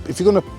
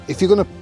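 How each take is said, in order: No difference in how they are said.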